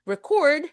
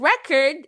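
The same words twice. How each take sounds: First: The stress is on the second syllable. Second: The stress is on the first syllable. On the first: It is used as a verb. "Record is the verb" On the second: It is used as a noun. "yun yung noun"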